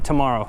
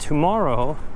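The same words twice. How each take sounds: First: The word is said fast with a reduced first syllable. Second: The word is said slowly with a full first syllable.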